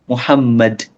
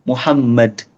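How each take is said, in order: Both takes have the same delivery.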